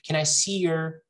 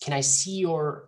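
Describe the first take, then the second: First: 'Your' is reduced to a neutral schwa. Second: 'Your' is said with a full vowel. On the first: The speaker calls it right. "it's easier to move" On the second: The speaker calls it wrong. "it's a lot of work"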